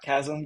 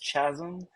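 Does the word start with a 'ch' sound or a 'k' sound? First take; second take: k; ch. First: The word starts with a 'k' sound. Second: The word starts with a 'ch' sound. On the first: The speaker calls it right. "not chasm" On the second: The speaker calls it wrong. "I was sure the word was chasm"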